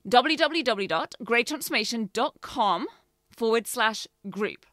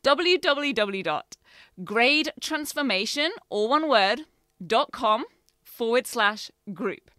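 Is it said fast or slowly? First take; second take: fast; slowly. First: It is said at a normal, quicker pace. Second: It is said more slowly and deliberately.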